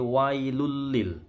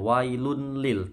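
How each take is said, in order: First: The n sound merges into a doubled l. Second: The n sound is pronounced before the l. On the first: The speaker calls it right. "tanwin ketemu lam ini melebur ke huruf setelahnya" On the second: The speaker calls it wrong. "Bukan wailun lil"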